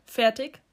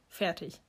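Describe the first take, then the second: First: FERTIG with rising pitch, as a question. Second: FERTIG softly, falling at the end; confirming FERTIG. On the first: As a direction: ask "Fertig", voice lifting at the end. Question, then answered with same word. („Fertig“ fragend, mit steigender Stimme) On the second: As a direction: answer "Fertig" quietly, voice dropping. Answer echoing the question. („Fertig“ leise bestätigend, mit fallender Stimme) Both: A narrator's reading.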